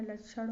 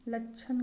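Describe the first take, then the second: First: लक्षण ending in retroflex ṛ-like ण; correct pronunciation. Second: लक्षण ending in dental n; wrong pronunciation. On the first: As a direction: curl the tongue on the end of लक्षण. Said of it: "होगा". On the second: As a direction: close लक्षण with a plain n. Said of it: "लक्षण गलत है". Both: Shown as a demonstration.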